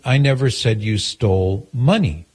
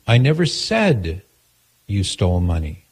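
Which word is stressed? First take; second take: money; said. First: The stress is on the word money. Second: The stress is on the word said.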